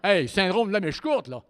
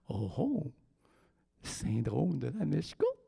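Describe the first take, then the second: First: It is said in a harsh, abrupt voice. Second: It is said in a very soft, loving voice.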